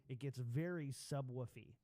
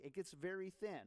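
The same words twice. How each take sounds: First: Heavy boomy low end on the voice; boomy subwoofer bass. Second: Thin, bass cut. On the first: Host demos maxed bass EQ on his voice, boomy. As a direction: sound like the bass is cranked to max. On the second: Host demos bass cut on his voice, thin. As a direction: sound thin and tinny. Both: Shown as a demonstration.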